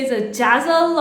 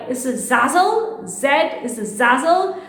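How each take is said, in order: First: "Jazzle" with a J replacing the Z; "Jazzle", first sound a J; slipped J pronunciation. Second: "Zazzle" with a Z at the start, rising at the end; "Zazzle" starting as in zoo; Z pronunciation. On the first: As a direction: say "Jazzle" starting like jazz. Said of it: "Sometimes I do say". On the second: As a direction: say "Zazzle" slowly with a clear Z. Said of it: "I do pronounce it a little bit weird". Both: Shown as a demonstration.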